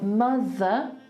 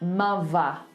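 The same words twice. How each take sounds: First: The middle consonant is a voiced th sound. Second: The middle consonant is a v sound. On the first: "If I was in R P and I was saying mother, I have to do a th" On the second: "So if you have a voiced T H, you replace it with a V"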